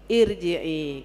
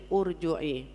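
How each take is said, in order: First: The word begins with an i sound. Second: The word begins with a u sound. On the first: The speaker calls it right. "Padahal irji'i, gitu" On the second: The speaker calls it wrong. "orang nggak ngerti, nggak ngaji, bacanya urju'i"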